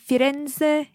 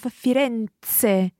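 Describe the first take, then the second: First: The middle consonant sounds like a buzzing z. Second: The middle consonant sounds like a crisp ts. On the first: The speaker calls it wrong. "You said Firenze" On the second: The speaker calls it right. "instead of Firenze"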